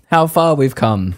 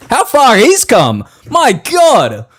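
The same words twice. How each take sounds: First: Said in the usual way. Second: High, loud, slow marvelling; mock awe. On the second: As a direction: draw it out in awe. Mock-awed repeat after AI laugh.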